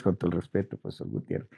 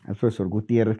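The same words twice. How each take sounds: First: Breathy whispered name, half to himself; a hushed, deferential whisper; whispered aside. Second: Said in the usual way. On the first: Real, not acted. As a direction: whisper it as a respectful afterthought. Respectful aside after joking about boss.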